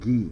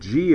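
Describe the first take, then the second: First: It starts with a hard g sound. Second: It starts with a soft j sound. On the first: The name matches the sound the letter makes. The speaker calls it right. "Since it's not jazz, it's gas, I decided that it should be called ghee" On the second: The name does not match the sound the letter makes. The speaker calls it wrong. "when you pronounce it G, it reminds me of the dance, jazz"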